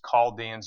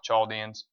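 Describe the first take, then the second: First: The word begins with a K sound. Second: The word begins with a CH sound. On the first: The speaker calls it right. "it's always the K sound" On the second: The speaker calls it wrong.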